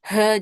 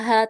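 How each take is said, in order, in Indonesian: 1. H didorong keras dari dada. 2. H dihembuskan ringan dari tenggorokan. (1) "bukan ha. Jadi jangan terlalu ditekan ha gitu" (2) "Dia bacanya di bawah tenggorokan aja"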